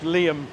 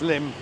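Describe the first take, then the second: First: The name is said with two vowel syllables. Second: The name is said as one short syllable. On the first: The speaker calls it wrong. "Or you might think it's Liam" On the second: The speaker calls it right. "It's Lim. Because Vietnamese doesn't have two vowels together"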